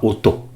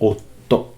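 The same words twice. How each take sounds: First: The t sound is single and short. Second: The t sound is doubled and held long. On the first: It means sound. The speaker calls it wrong. "et non pas" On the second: It means husband. The speaker calls it right. "ne pas oublier le petit tsu là"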